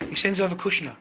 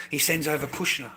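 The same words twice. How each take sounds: First: Louder and higher, stress on over; indignant repeat to the viewers; emphatic repeat. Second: Said in the usual way. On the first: Real, not acted. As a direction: drive the point home the second time.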